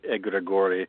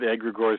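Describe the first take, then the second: First: It is said with a Greek pronunciation. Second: It is said with an English pronunciation. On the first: "it is Greek, so it should be more like" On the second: "because that's the easiest"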